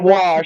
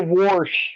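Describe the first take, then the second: First: The word is said without an R sound. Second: The word is said with an R sound. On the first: "instead of" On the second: "with an R"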